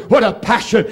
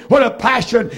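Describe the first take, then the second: No difference in how they are said.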